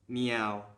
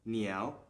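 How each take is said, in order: First: The word is said on a level tone. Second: The word is said on a rising tone. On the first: The speaker calls it wrong. "instead of reading it meow with a neutral tone" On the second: The speaker calls it right. "we would read this word as niao with a rising tone"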